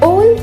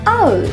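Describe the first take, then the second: First: The vowel is a plain 'oh' sound. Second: The vowel glides from 'ah' to 'oo'. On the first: The speaker calls it wrong. "ओल इसका गलत उच्चारण है।" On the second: The speaker calls it right. "जोड़कर बोलिए आउल।"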